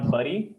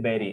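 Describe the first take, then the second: First: The first vowel sounds like 'uh'. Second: The first vowel sounds like 'eh'. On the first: The speaker calls it wrong. "It is not बरी" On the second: The speaker calls it right. "You pronounce as A"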